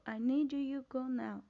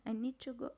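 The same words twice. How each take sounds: First: Slow, insistent "I need you go now"; deliberate demonstration of an order; emphatic command. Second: Said in the usual way. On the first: Shown as a demonstration. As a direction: press each word of "I need you go now" slowly and firmly. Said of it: "Se vocês perceberem na minha entonação na voz".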